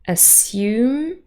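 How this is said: The s is followed by a y sound. "R P, we would say"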